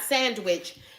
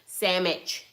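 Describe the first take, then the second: First: It is said with the full 'nd-w' sounds. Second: It is said as 'sammich' with reduced middle sounds. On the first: "Not sandwich" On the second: "S A M M I C H"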